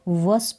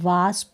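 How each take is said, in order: First: The vowel is a short 'uh' sound. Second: The vowel is a long 'aa' sound. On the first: The speaker calls it wrong. "इसको भी वस्प नहीं" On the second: The speaker calls it right. "वास्प पढ़ेंगे"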